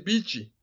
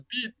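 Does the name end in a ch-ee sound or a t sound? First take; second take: ch-ee sound; t sound. First: The name ends with a ch sound plus ee. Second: The name ends on a plain t sound. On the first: "they say beachy" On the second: "his name is Beat"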